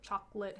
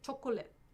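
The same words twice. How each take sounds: First: It is said with ordinary English pronunciation. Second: It is said with Korean loanword pronunciation. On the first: "how we would pronounce it in English" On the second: "they say chocolate"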